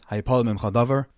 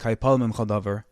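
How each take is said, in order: First: It is said as a rising question. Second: It is said as a falling statement.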